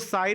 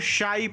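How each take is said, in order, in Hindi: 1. शब्द की शुरुआत सादी "s" ध्वनि से होती है। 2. शब्द की शुरुआत "sh" ध्वनि से होती है। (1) "साई नहीं" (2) "बल्कि शाई पढ़ते हैं"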